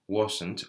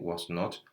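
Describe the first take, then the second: First: It is said as one shortened contracted word. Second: It is said as two full separate words.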